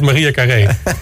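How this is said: The name is said the Spanish way. "iedereen die zegt [name]"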